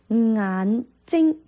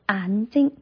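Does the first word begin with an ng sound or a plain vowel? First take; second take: ng sound; plain vowel. First: The first syllable begins with an ng sound. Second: The first syllable begins with a plain vowel. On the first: The speaker calls it right. "如果是正常的叫做嗯啊眼睛" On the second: The speaker calls it wrong. "但是懒音的时候叫做眼睛"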